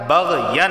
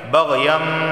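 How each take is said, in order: First: بغین said with a clear n sound before the b; with the nun sound. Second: بغیم said with the n changed into an m sound, nasalized; iqlab, nun turned to meem. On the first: Teacher shows the original nun sound in بغین. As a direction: keep the n of بغین, no change to m. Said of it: "نون کی آواز آ رہی ہے". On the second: Teacher shows the iqlab rule, nun becomes a nasal meem. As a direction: turn the n into m in بغیم with ghunna through the nose. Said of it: "ہم میم کی آواز نکالیں گے". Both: Shown as a demonstration.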